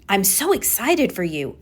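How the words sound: The voice sounds genuinely excited and lively. The tone matches the words. The speaker calls it right. "it should sound like I'm excited for you"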